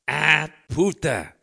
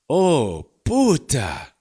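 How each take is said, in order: First: It sounds annoyed and disgusted. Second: It sounds pleased and delighted.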